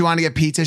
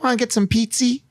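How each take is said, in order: First: Said in the usual way. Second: "pizza" said as "pizzy", pitched higher; cutesy baby talk. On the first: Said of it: "instead of saying she wanted to get pizza". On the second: Retold or imitated. Wife asking for food in cute talk, "pizza" becomes "pizzy". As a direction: end "pizza" in a cute little ee sound. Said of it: "random Ys on the end of her words".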